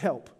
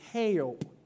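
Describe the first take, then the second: First: The word is said in a plain adult way. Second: The word is said like hell blended with Yelp. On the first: "It's not help" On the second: "it's like hell meets Yelp"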